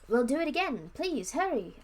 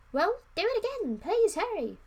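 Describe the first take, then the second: First: Earnest plea, a bit higher and louder; begging. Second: High, loud urgent demand; overdone plea. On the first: Children beg the wizard to cast the spell again. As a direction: ask him desperately. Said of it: "I begged him". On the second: Prince urging the wizard, high and loud. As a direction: push it hard, too eager. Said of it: "no, that wasn't". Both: Acted.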